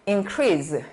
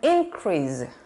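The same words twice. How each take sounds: First: The stress is on the second syllable. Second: The stress is on the first syllable. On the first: It is a verb. "늘어나다 할 때는" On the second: It is a noun. "증가 이럴 때는"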